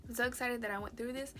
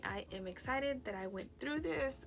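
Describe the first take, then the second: First: Quick retake, stress on so; plain. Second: Talking through the hiccups; words interrupted by a hiccup. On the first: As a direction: rush through the retake. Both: Real, not acted. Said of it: "I got the hiccups".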